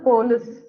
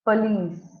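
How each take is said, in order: First: The first syllable has a full 'po' vowel. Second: The first syllable has a short 'puh' vowel. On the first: The speaker calls it wrong. "இங்க போ sound வராது" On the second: The speaker calls it right. "ப sound வரணும்"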